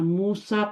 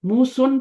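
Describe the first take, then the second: First: The name ends with a long a sound. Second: The name ends with a short u plus n. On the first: The speaker calls it right. "मूसा पढ़ा जाता है, अलिफ की आवाज साउंड करता है" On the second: The speaker calls it wrong. "तो नहीं होता"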